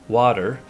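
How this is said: It is said in an American accent.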